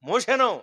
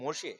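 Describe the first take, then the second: First: The name is said with an extra ending, Mosheno. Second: The name is said plainly as Moshe. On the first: A village distortion of the name. The speaker calls it wrong. "మీకు తెలియటానికి మోషెనో మోషెనో అంటారు" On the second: The proper form of the name. The speaker calls it right. "అతని పేరు మోషే"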